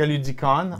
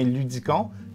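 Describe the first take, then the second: First: The name is pronounced the English way. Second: The name is pronounced the French way.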